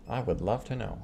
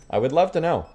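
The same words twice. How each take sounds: First: Softer muttered echo; quiet repeat. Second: Higher, louder, exclaiming; emphatic exclamation. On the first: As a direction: say it again under your breath. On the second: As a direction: belt it out with emphasis. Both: Acted.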